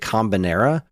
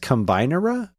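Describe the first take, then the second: First: It is read as spelled, not like combine. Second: It begins like the English word combine. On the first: It is read the way the spelling looks. "I look at the word and say Combinera" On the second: It refers to combining things. "you're supposed to be like combining things. So maybe it's Combinera?"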